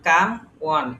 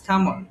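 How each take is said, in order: First: The second word starts with a w sound. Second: The second word starts with a plain vowel. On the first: The speaker calls it wrong. "Not come ওয়ান" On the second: The speaker calls it right. "এর উচ্চারণ M পর্যন্ত বাদ"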